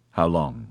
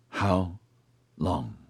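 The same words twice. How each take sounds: First: Low, urgent growled question. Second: Slow, halting, softer question; whispered. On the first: Oscar presses for his sentence, urgent growl. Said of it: "There was an urgency in his growl". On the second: Oscar dreads hearing his sentence, whispered. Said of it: "Oscar whispered". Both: A narrator's reading.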